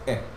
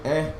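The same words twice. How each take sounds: First: The vowel is clipped short and quick. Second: The vowel is held at normal length.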